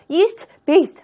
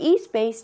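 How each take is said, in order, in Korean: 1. yeast의 끝 t는 발음합니다. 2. yeast의 끝 t는 생략합니다. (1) "East based 하면 힘들잖아요" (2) "조음점이 같으니까 생략하는 거예요"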